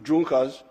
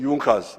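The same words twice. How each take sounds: First: It is read out the way it is spelled. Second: It is said the way native speakers say it. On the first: This is how the name is written. The speaker calls it wrong. "they write it Junkers" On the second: This is how the name is actually pronounced. The speaker calls it right. "but they say Junkers, that the pronunciation is Junkers"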